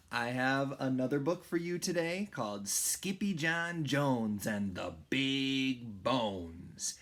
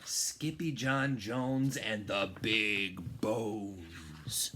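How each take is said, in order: First: Said in the usual way. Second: Slow whispered title. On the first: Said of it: "title read plainly then whispered". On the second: Shown as a demonstration. Reading the book title to first graders in a slow whisper. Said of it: "title whispered slowly".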